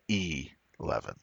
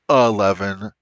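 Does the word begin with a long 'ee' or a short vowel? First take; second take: long ee; short vowel. First: The word begins with a long 'ee' vowel. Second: The word begins with a short, reduced vowel. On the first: The speaker calls it right. "It's E11" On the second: The speaker calls it wrong. "not 11"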